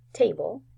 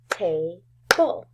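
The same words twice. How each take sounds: First: Said in the usual way. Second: "table" broken in two, ta, pause, ble; split into syllables. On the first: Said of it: "say some words". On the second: Shown as a demonstration. Teacher showing first graders the syllables, "table" split as ta... ble. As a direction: clap out "table" as two separate beats. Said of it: "clap out the syllables".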